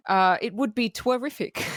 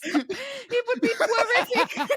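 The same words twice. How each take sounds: First: Said in the usual way. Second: "twerific" drawn out slowly, high and laughing; silly Mel Brooks line. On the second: Shown as a demonstration. Quoting the Mel Brooks line "twerific", slow and laughing. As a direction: savor "twerific" slowly through laughter, pitched up. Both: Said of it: "twerific is not a word".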